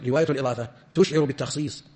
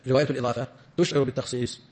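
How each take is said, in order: Both takes have the same delivery.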